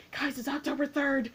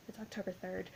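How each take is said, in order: First: Higher, animated mock announcement; imitated excited fans. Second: Very soft, understated reply; imitated Katie. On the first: Imitating people online telling everyone the date, high and excited. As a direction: announce it to everyone with a laugh ready. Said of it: "people are like". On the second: Imitating Katie answering Aaron Samuels about the day, soft and understated. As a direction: answer quietly, barely projecting. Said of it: "and she's like".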